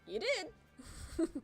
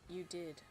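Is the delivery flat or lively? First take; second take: lively; flat. First: It is said with lively expression. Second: It is said in a flat monotone. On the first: The speaker calls it right. "he's more Luffy like" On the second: The speaker calls it wrong.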